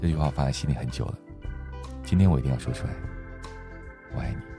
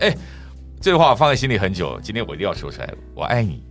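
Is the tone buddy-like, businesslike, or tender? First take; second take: tender; buddy-like. First: It sounds soft, open and tender. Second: It sounds casual and buddy-like.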